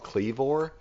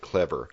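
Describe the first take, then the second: First: The word is said in a West Texas accent. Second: The word is said without a West Texas accent. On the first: "If you're from West Texas, it's probably called Clevor" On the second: "Otherwise, you might pronounce it Clever"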